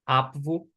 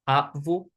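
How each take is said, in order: Both takes have the same delivery.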